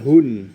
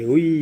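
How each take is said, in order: First: The syllable ends with a clear n sound. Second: The syllable ends gliding into a y sound. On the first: The speaker calls it wrong. "Bukan hun" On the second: The speaker calls it right. "tapi hui"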